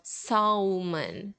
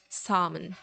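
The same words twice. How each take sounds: First: The L sound is pronounced in the word. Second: The L sound is left out of the word. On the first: The speaker calls it wrong. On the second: The speaker calls it right. "we don't say the L"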